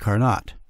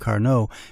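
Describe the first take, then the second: First: It is said the local way. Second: It is said the standard French way.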